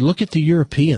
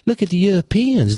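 First: It is said in the speaker's plain accent. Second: It is said in a Southern American accent.

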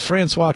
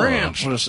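First: It is said the French way, ending in 'swah'. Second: It is said like the English name 'Francis'. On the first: This is not how locals say the name. The speaker calls it wrong. "don't call the county clerks and say" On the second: This is how locals say the name. The speaker calls it right. "It's Francis"

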